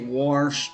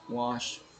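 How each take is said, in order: First: It has a strong West Virginia accent. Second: It has a mild West Virginia accent. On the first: This is how the speaker used to talk. "I used to say wash and far, you know, like that" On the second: This is how the speaker talks now. "I don't say it like that anymore. I say fire, wash"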